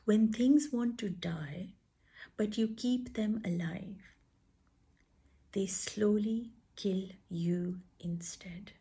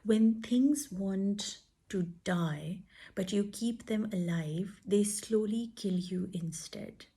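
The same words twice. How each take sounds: First: It is read slowly and deliberately. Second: It is read at a normal pace.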